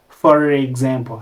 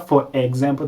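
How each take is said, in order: First: An R sound links the two words together. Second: The words are said without a linking R sound. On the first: The speaker calls it right. "tuvuga for example, harimo R" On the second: The speaker calls it wrong. "Ntabwo tuvuga"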